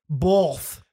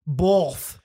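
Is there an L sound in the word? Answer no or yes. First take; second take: yes; yes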